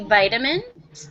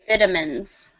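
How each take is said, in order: First: It is said with an American pronunciation. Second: It is said with a British pronunciation. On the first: "in the U S, we say vitamins" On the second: "people who are English from the U K say vitamins"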